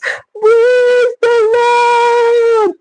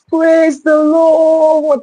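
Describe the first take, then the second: First: It is said dramatically, imitating her. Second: It is said plainly, without drama.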